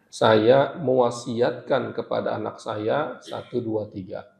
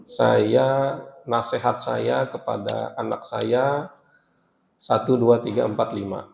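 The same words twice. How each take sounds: First: Solemn last will. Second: Said in the usual way. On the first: Shown as a demonstration. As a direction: say it like a dying parent's final bequest, slowly. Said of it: "itu biasanya lebih kuat berkaitan dengan wasiat". (wasiat yang khidmat dan pelan) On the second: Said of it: "Tapi kalau bahasanya".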